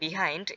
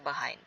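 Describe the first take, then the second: First: The first syllable has a clear 'ee' vowel. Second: The first syllable has a reduced 'uh' vowel. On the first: "এটাকে আমরা আরেকভাবে উচ্চারণ করতে পারি" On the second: "সেটা হচ্ছে বাহাইন্ড"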